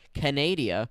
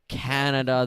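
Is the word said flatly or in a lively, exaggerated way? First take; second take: lively; flat. First: The word is said in a lively, exaggerated way. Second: The word is said in a flat, plain way.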